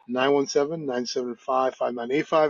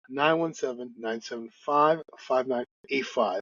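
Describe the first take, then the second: First: The number is said fast. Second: The number is said slowly.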